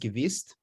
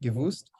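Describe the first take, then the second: First: It is said in a Hungarian-Hasidic pronunciation. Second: It is said in the standard pronunciation. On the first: "which you might pronounce as gewist if you're Hungarian Jew or a, or a Chassid" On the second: "Yivo writes it like this"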